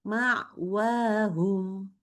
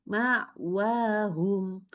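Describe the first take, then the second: The two takes are said the same way.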